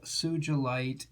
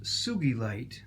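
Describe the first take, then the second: First: The middle consonant is a soft j sound. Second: The middle consonant is a hard g sound. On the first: This is how most people say it. "which I pronounce that way because most people do" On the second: This is the official pronunciation. "officially pronounced Sugilite because of the Japanese gentleman who first discovered it"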